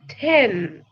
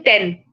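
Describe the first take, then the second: First: The t is said the English way. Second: The t is said the Indian way. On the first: The speaker calls it right. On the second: The speaker calls it wrong. "Don't say ten"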